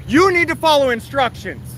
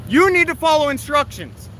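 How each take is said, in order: Both takes have the same delivery.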